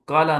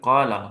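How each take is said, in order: First: The first vowel is short. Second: The first vowel is long. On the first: The speaker calls it wrong. "काला नहीं" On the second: The speaker calls it right. "बल्कि काला हो जाता है"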